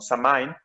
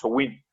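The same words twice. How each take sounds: First: It is said with a common Western pronunciation. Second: It is said with an approximate Gaelic pronunciation. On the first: The speaker calls it wrong. "lo voy a pronunciar mal porque en el gaélico se pronuncia diferente, pero todos en Occidente lo pronunciamos" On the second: The speaker calls it right. "la pronunciación de Samhain es Samhain, aproximadamente"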